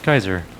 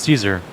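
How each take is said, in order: First: The name begins with a k sound. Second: The name begins with an s sound. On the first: "apparently it could also be pronounced Kaiser" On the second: "when I grew up, it was Caesar"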